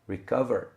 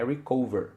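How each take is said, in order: First: The vowel in 'cover' sounds like 'a'. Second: The vowel in 'cover' sounds like 'o'. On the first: The speaker calls it right. "O som é a" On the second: The speaker calls it wrong. "não é recover"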